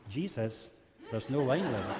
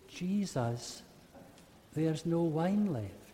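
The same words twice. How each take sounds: First: It is said in a disappointed tone. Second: It is said quietly and fearfully.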